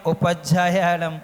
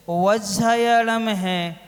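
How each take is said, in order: First: Quick careless उपज्जायालम; the lazy everyday उपज्जायालम; common mispronunciation. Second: वज्जायालम spelled out slowly, each syllable clear; slow exact वज्जायालम; careful pronunciation. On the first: Monk imitating how listeners rush उपज्जायालम. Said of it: "आप लोग बोलते हैं". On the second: Monk teaching the right form of वज्जायालम, slowly. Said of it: "आप लोग बोलते हैं उपज्जायालम". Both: Shown as a demonstration.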